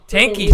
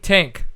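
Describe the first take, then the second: First: The name ends with a pronounced final E. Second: The name ends with a silent final E. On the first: The speaker calls it right. "it's not a silent E?" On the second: The speaker calls it wrong. "How did I screw it up? It's very wrong"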